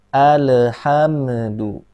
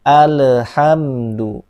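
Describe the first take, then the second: Both takes have the same delivery.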